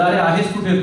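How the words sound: It is spoken in a Mumbai Marathi accent. "मुंबईच्या मराठीत म्हणायचं झालं"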